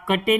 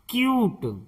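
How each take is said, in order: First: It starts with ka and ends in teh. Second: It starts with kyoo and ends in t. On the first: The speaker calls it wrong. "इसे कुटे या कटे नहीं पढ़ेंगे" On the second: The speaker calls it right. "इसे पढ़ेंगे क्यूट"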